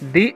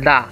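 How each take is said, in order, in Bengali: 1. স্বরধ্বনিটি একটি দীর্ঘ 'ee' ধ্বনি। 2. স্বরধ্বনিটি একটি ছোট 'uh' ধ্বনি। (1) "ই একটা ভাওয়েল, এই কারণে উচ্চারণ হবে দি" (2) "সুতরাং এর উচ্চারণটা কি হবে দা"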